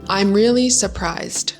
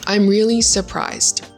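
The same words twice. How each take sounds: First: It is said with a British accent and attitude. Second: It is said plainly, without a put-on British accent. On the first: "For the British attitude" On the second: "That's like a basic sentence"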